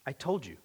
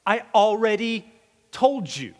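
First: Quiet Jesus. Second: A touch of exasperation, leaning on told; weary "I already told you"; mildly fed-up reply, told stretched; exasperated Jesus. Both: Acted.

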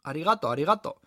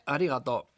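First: "Arigato" with the stress on the second A; misplaced accent. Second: Said in the usual way. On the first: Acted. Waitress practising her Japanese thanks, "arigato" stressed on the second A. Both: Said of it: "poniendo el acento en la segunda A".

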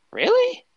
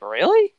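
First: Very high squeaky disbelieving question; incredulous. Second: Rising surprised question. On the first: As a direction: push the disbelief way up. Repeated disbelief, pitched far higher. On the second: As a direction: ask it with a spark of disbelief. Repeated disbelief at the cast. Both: Retold or imitated.

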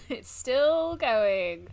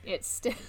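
First: Echoing it very slowly through a laugh; mock-weary laughing echo. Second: Said in the usual way. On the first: Shown as a demonstration. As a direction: drag every word out while laughing. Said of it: "And it's still going".

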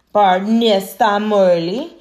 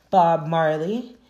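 First: Loud, slow, higher-pitched Jamaican accent. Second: Said in the usual way. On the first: Shown as a demonstration. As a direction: give the name your best put-on Jamaican lilt, drawn out and loud. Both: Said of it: "that's my best Jamaican accent".

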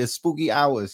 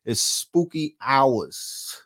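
First: Said in the usual way. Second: Slow, stretched-out [name]-style line; [name]-style drawl. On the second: Retold or imitated. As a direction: drag every word like a [name] hook. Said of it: "Shout out to [name]".

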